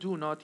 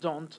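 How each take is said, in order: First: It is said as two full separate words. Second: It is said as one shortened contracted word. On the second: "is going to be don't"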